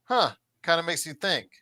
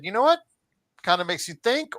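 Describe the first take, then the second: First: High falling "huh", then doubtful musing. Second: High, rising intrigued reaction; pleasantly intrigued. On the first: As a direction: puzzle over it as if unimpressed. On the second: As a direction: react as if struck in a good way. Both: Acted. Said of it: "either a good or bad way".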